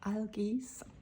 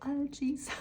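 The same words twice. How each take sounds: First: The word is said with a Norse pronunciation. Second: The word is said with an anglicized pronunciation. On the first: The speaker calls it right. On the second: The speaker calls it wrong.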